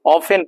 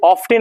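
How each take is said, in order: First: Often said as off-en, t silent; often without t. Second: Often said as off-ten, t sounded; wrong often with t. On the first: Teacher shows class often with silent t. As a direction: say often with no t sound. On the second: Teacher mimics the students' often with a t. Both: Shown as a demonstration. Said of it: "इसको often नहीं पढ़ा जाता है".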